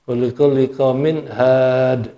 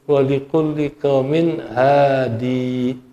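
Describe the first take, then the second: First: The last word ends on the consonant 'd'. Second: The last word ends with a long 'ee' vowel. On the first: "kalau enggak dibaca iya-nya had" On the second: "kalau dibaca iya-nya hadi"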